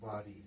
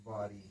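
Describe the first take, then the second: First: Low, soft বাড়ি with a retroflex ড়; curled-back ড়. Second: বাড়ি said as "bari", with a plain forward র for ড়; low, soft বাড়ি with the tongue forward, making র. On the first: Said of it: "এখানে যদি আমি লিখে ফেলি". (বাড়ি-র ড় জিভ গুটিয়ে, নিচু গলায়) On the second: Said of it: "র লিখেছি". (বাড়ি-কে জিভ সামনে রেখে "বারি" উচ্চারণ) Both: Shown as a demonstration.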